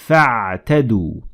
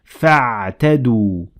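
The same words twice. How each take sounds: No difference in how they are said.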